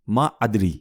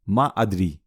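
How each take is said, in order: The two takes are said the same way.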